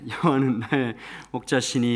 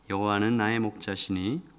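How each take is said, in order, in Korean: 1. 힘차고 큰 목소리로 낭송합니다. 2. 천천히 작은 목소리로 낭송합니다. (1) "얼마나 목소리가 좋았겠어요" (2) "천천히 작은 소리로"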